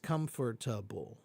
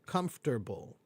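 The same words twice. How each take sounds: First: The word is said with four syllables. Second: The word is said with three syllables. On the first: "four syllables" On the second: "it's three syllables"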